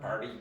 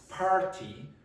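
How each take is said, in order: First: The middle t is a quick flap. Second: The middle t is a clear t. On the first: The speaker calls it wrong. "there's a little flap like that" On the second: The speaker calls it right. "If you pronounce party, Americans understand you"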